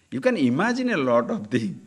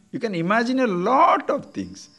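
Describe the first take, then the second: First: Said in the usual way. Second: "lot" stretched out and pitched high; stress on "lot". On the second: Real, not acted. Teacher repeats warning about imagination, heavy stress on "lot". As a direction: lean long and high on "lot".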